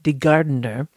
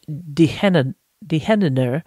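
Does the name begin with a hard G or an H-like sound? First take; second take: hard G; H sound. First: The G is said as a hard G sound. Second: The G is said as a breathy H sound. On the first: "We would pronounce it like De Gardener" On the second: "I'm going to say it in Dutch"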